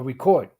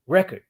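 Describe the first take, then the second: First: "record" said ri-KORD, stress on the second syllable; the verb "record", weight at the end. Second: "record" said REK-erd, stress on the first syllable; the noun "record", weight up front. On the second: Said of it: "or record". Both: Shown as a demonstration.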